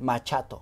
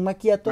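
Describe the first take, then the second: First: The middle consonant sounds like 'ch'. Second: The middle consonant sounds like 'k'. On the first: The speaker calls it wrong. "muchas personas llegan y dicen el machato" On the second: The speaker calls it right. "la CH en sí, italiano es como la Q"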